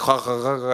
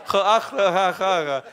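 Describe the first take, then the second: First: A mild imitation of a stiff "ha, ha, ha"; mock Dutch laugh. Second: High, hammed-up "ha, ah, ha"; mock Dutch laugh. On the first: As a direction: lightly mimic the local's laugh. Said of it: "It's a good impression". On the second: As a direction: ham up the local's laugh. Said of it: "hey, I do my best".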